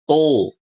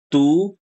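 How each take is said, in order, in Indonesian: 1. Suku kata itu terdengar berat dan tebal. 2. Suku kata itu terdengar ringan dan tipis. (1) "seringnya dibacanya tuh tebal"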